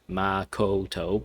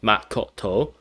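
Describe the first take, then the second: First: The A and O vowels are drawn out. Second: Each syllable ends with a sudden stop. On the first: This is how English speakers usually say it. "as regular English speakers we just be like Makoto, right? With the kind of drawn out A and O sounds" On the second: This is the Japanese way of saying it. "in Japanese... it'll be a sudden like stop"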